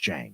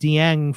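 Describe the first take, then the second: First: The name begins with a J sound. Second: The name begins with a D sound. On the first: The speaker calls it right. "before I realized it was Jang" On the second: The speaker calls it wrong. "I called him Dieng for maybe uh, three years"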